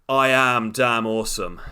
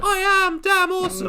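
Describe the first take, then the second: First: It is said in a normal voice. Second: It is said in a high voice.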